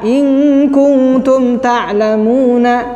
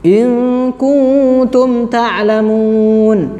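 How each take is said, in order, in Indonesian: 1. Bunyi n terakhir diikuti oleh vokal. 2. Bunyi n terakhir dihentikan tanpa vokal. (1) "Tidak ya?" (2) "Kan nanya nggak dibaca ya?"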